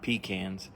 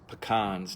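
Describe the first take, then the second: First: The first syllable sounds like 'pee'. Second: The first syllable does not sound like 'pee'. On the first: The speaker calls it wrong. "not pecans. Pecans are what you buy in the store with peas in it" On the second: The speaker calls it right. "it's pecans"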